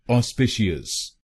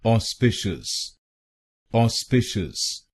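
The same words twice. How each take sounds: First: ऑस्पिशियस said wrong as 'os-pi-shi-yas', four syllables with an ee-yas ending; wrong pronunciation. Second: ऑस्पिशियस said as 'aw-SPI-shus', three syllables ending in a short 'shus'; teacher's correct ऑस्पिशियस, 'aw-spi-shus'; correct pronunciation. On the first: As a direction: show the common mistake: ऑस्पिशियस with a full 'shi-yas' ending. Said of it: "कुछ लोग गलत pronounce करते हैं". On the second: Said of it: "इसकी सही pronunciation है". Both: Shown as a demonstration.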